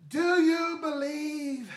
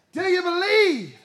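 First: Slow call, stress on Do; slow drawn prompt. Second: "believe" leaned on, fuller voice; stress on believe. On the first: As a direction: draw out "Do you believe" slowly. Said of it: "what's the next word?". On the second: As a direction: press the word "believe". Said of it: "Everybody say it". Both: Shown as a demonstration.

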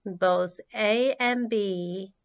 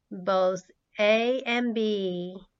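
Both takes have the same delivery.

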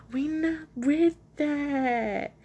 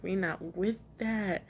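First: High, very slow drawn-out mock refusal; hammed-up, elongated catchphrase; exaggerated repeat. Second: Said in the usual way. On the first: Real, not acted. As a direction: stretch every word out, voice pitched way up. Jokey drawn-out repeat of the line.

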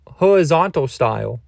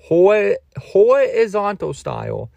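First: Said in the usual way. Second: Higher, slow, put-on sultry drawl; camp, slow and high; hammed-up sultry voice. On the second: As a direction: stretch it out like a mock seductress. Repeats phrase in put-on voice.

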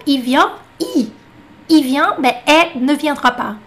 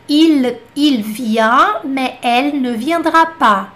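First: "Il" as "i", "elle" as "è"; L omitido. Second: "Il vient, mais elle ne viendra pas" slow, every L and the "ne" sounded; deliberate word by word with clear L in "Il" and "elle"; pronúncia padrão completa. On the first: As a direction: drop both L's in "Il vient, mais elle ne viendra pas". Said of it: "Eles falam". ("Il" e "elle" sem L) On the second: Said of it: "essa frase aqui". (devagar, com todos os L) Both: Shown as a demonstration.

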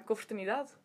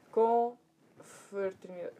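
First: Said in the usual way. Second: "Confraternidade" said very slowly, part by part; slow sounding-out. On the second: Real, not acted. Speaker feeding "Confraternidade" to the translator, very slowly. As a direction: stretch out "Confraternidade" syllable by syllable.

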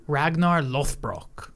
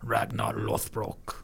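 First: Ragnar Lothbrok with a rolled, foreign-sounding r and slow, drawn-out syllables; slow, deliberate "Ragnar Lothbrok" the way the show says it; saying it the show's way. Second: Slow, softer, lower "Ragnar Lothbrok" with the name drawn out; saying it the show's way. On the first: Explaining to a friend how the show says the name, slow and deliberate. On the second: Showing a friend the proper way to say the name, slow and soft. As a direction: Ragnar Lothbrok repeated slowly and carefully, the way they say it.

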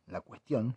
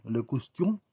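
First: Said in the usual way. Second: "le cuestión" with French le; frenchify "le cuestión"; mock French le. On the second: Shown as a demonstration.

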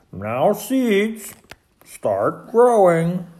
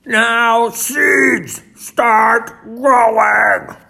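First: Raised, drawn-out command. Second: Full, high, drawn-out shout. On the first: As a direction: order the seeds firmly. Toad commanding his seeds to grow. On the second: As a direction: bellow the order at the seeds. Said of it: "and shouted". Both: A narrator's reading.

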